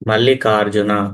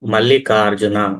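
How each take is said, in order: No difference in how they are said.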